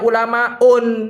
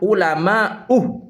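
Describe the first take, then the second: First: The word ends with an added n sound. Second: The word ends in a vowel without n. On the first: The speaker calls it wrong. "jangan dibaca tanwin, jangan dibaca ulamaun" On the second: The speaker calls it right. "maka cara bacanya yang benar itu adalah ulama uh"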